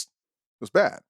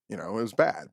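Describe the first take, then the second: First: "bad" lifted high and stretched on a rise; rising emphasis. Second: Said in the usual way. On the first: Real, not acted. Co-host recalling the injury, "bad" said high and rising. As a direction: push "bad" up high, almost incredulous.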